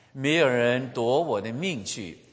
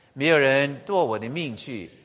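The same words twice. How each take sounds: Both takes have the same delivery.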